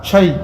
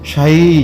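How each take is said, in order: First: The vowel is kept short. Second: The vowel is drawn out long. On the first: It means anything. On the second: It means tea.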